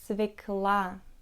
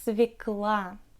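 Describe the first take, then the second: Both takes have the same delivery.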